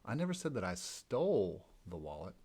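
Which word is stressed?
stole. The stress is on "stole".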